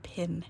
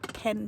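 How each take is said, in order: First: The vowel is close, as in 'pin'. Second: The vowel is open, as in 'pen'. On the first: The speaker calls it wrong. "not pin" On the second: The speaker calls it right. "Pen, pen, pen, not pin"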